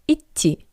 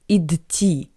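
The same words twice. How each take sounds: First: The first consonant is a voiceless t sound. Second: The first consonant is a voiced d sound. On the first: The speaker calls it right. "sounds like «ит»" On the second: The speaker calls it wrong. "Not like «идти»"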